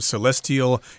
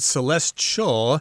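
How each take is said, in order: First: The word is said with a Canadian pronunciation. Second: The word is said with an American pronunciation. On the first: "I assume celestial is the Canadian pronunciation?" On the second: "That is the American pronunciation"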